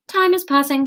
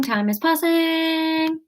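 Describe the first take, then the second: First: Said in the usual way. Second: Drawn out, time is passing, slowed and hushed; slow dreamy time passing. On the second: Shown as a demonstration. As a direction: stretch it out like time drifting by. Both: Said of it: "pause there".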